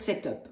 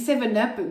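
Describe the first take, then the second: First: The number is said as French sept. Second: The number is said as English seven. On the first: "mais moi, j'adore dire sept up" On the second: "je sais que ça se dit seven up"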